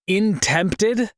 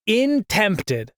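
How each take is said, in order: First: "intempted" with a rising, puzzled tune; questioning. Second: "Intempted" with a falling end; flat statement. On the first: Narrator doubting his own word, "intempted" rising at the end. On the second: Narrator repeating his flub, "Intempted" falling at the end. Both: Real, not acted.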